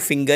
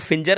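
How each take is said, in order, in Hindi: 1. g की आवाज़ कठोर है। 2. g की आवाज़ j जैसी है। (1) "इसको फिंगर ही पढ़ना है आपको" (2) "अब इसको फिंजर नहीं बोल दीजिएगा"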